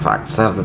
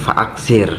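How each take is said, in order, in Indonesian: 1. Suku kata terakhir memiliki vokal a. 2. Suku kata terakhir memiliki vokal i. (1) "bacaannya bukan fa'aksar" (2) "tetapi fa'aksir"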